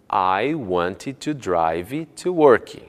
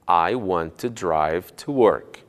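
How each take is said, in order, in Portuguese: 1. Uma vogal extra segue a palavra want. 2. Want termina limpo na sua consoante final. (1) "E não" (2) "Você deve dizer"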